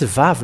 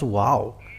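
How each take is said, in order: First: The word begins with a v sound. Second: The word begins with a w sound. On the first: The speaker calls it right. "it's it's Vav" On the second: The speaker calls it wrong. "not wow"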